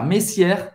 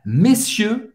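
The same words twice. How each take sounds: First: "messieurs" misread as mess-YAIR with sounded R; wrong "messieurs", ending in -ièr; meaningless mispronunciation. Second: "messieurs" as meh-SYEU, silent R; French "messieurs", no R or S at the end; correct French plural. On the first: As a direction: say "messieurs" with an open E and R at the end. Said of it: "não significa nada". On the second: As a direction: say "messieurs" with clear É first, closed EU last. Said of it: "messieurs significa senhores no plural". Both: Shown as a demonstration.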